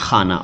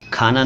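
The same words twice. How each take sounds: First: The first sound is a rough throaty kh. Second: The first sound is a plain aspirated k. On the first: This is the word meaning house or place. The speaker calls it right. "खाना नहीं खाना" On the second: This is the everyday word, not the one meant. The speaker calls it wrong. "खाना नहीं"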